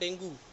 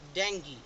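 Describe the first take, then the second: First: The word ends with an 'oo' sound. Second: The word ends with an 'ee' sound. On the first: The speaker calls it wrong. "जो बीमारी होती है उसको हम बोलते हैं डेंगू" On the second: The speaker calls it right. "वो डेंगू नहीं होता, वो होता है डेंगी"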